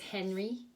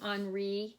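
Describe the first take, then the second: First: The name is said with English pronunciation. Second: The name is said with French pronunciation. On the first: "we would pronounce this Henry in English" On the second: "that would be the French way to say it"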